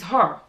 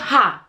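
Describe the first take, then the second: First: The word is said in a non-Nigerian accent. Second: The word is said in a Nigerian accent. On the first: The speaker calls it right. "it is her" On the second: The speaker calls it wrong. "it's not her"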